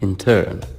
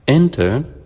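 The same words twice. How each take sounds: First: The stress is on the second syllable. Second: The stress is on the first syllable. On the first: It is an action. "As a verb, we say it or we read it as intern" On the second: It names a person in training. "as a noun, it's intern"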